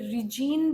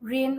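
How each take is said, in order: First: The word is said with a hard 'g' sound. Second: The word is said with no 'g' sound. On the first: The speaker calls it wrong. "ये रिजीन भी होता है" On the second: The speaker calls it right. "इसे pronounce किया जाता है रेन"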